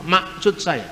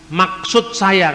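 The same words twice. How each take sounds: First: Maksud with the middle k dropped, sounding like Masut; Batak swallowed k. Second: Maksud with a firm, clearly spoken k in the middle; crisp middle k. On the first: Preacher teaching a class how Batak speakers say maksud. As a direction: soften the k away in Maksud, the Batak way. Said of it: "kan orang Batak nggak ngomong". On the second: Preacher teaching a class the crisp k that Batak speakers avoid. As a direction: hit the k in Maksud hard and clean. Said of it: "sulit untuk mengatakan huruf K di tengah, tegas". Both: Shown as a demonstration.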